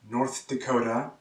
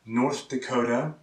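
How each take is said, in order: Both takes have the same delivery.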